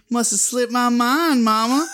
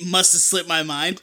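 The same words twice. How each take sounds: First: Sly imitation of a kid who got away with it; devilish. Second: Said in the usual way. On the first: Kid excusing himself to Mama, devilish. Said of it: "devilish way". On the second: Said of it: "kids don't say".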